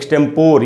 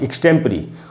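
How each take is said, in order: First: The word ends with a por sound. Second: The word ends with a pree sound. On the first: The speaker calls it wrong. "उसको लोग अक्सर एक्सटेम्पर या एक्सटेम्पोर ये सब पढ़ लेते हैं" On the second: The speaker calls it right. "वो वर्ड है एक्सटेम्परी"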